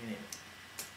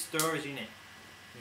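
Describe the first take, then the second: First: Breathy whisper, much softer; whispered aside. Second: Said in the usual way. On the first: Real, not acted. Repeats the phrase as an aside.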